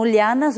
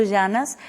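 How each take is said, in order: First: LIANAS with a "ly" sound at the start; variant pronunciation. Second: LLANAS with a "zh" sound for the double L; variant pronunciation. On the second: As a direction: say "llanas" as "zhanas". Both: Shown as a demonstration. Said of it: "ou então lianas ou llanas".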